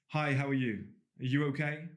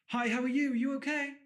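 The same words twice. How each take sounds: First: The voice stays at a lower, normal pitch. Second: The voice is raised to a high pitch. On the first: The speaker comes across as self-assured. The speaker calls it right. "Instead of going" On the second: The speaker signals being harmless and wanting to be liked. The speaker calls it wrong. "they will raise their tone"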